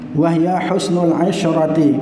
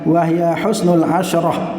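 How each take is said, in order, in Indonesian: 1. Kata terakhir dimulai dengan vokal 'i'. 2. Kata terakhir tidak dimulai dengan vokal 'i'. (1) "yang benar adalah dibaca dengan kasrohnya ain" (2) "asyrah artinya sepuluh"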